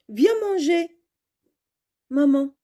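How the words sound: It is said with a short pause before maman.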